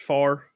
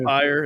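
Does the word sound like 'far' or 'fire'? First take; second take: far; fire. First: The vowel is flat, sounding like 'far'. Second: The vowel glides, sounding like 'fire'. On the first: "it's far. that's the way we say it around here" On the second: "not fire"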